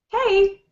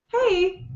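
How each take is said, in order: First: Lively and energetic, with an excited tone. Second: Lively and energetic, with an excited tone.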